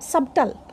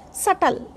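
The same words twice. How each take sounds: First: Subtle as SUB-tul, b sounded; wrong pronunciation. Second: Subtle as SUT-ul, silent b; correct pronunciation. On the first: Teacher showing the mistake in subtle, sounded b. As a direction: pronounce the b in subtle. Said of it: "not subtle". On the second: Teacher modelling subtle for learners, silent b. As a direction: leave the b out of subtle. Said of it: "this should be pronounced subtle". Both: Shown as a demonstration.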